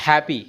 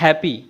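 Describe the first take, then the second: First: Happy as softer HAAP-ee; correct pronunciation. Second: Happy as HEP-pee; wrong pronunciation. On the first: Teacher gives the right form, correctly pronounced happy. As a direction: open the first vowel of happy. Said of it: "it's happy". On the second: Teacher rejects the common form, mispronounced happy. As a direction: narrow the first vowel of happy. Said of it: "It's not happy". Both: Shown as a demonstration.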